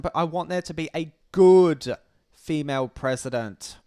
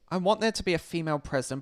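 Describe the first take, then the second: First: Long, loud emphasis on "good"; stress on good. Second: Said in the usual way. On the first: Real, not acted. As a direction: lean hard on "good", then pause. Stresses the one added word.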